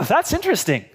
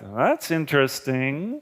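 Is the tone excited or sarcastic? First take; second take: excited; sarcastic. First: It is said with excitement and curiosity. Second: It is said in a sarcastic, dismissive tone. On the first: The speaker is curious and genuinely interested. "with a certain amount of excitement" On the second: The speaker is skeptical and not interested. "with sarcasm and a bit of a dismissive tone"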